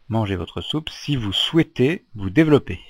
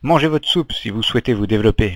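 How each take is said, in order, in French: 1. Elle est lue lentement et avec soin. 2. Elle est lue à un rythme normal, plutôt rapide.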